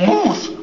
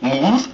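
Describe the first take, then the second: First: Moose said high and falling, a clear example; model word. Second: Moose said lower with a questioning rise; unsure repeat. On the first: Moose teaches the duckling to say moose, firm falling model. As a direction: say moose firmly for him to repeat. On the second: Duckling repeats the word back to the moose, unsure rising. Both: Shown as a demonstration. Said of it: "Speak after me".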